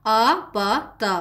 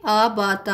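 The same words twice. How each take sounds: First: "आ बा ता" spelled out slowly, each syllable apart; slow syllable drill. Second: Said in the usual way. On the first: Shown as a demonstration. Teacher reading the joined syllables for pupils, slow and separated. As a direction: sound out "आ बा ता" syllable by syllable. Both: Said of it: "आ sound देता है ये ज़बर".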